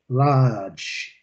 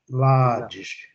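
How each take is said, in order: First: It is said with a British accent. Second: It is said with a British accent.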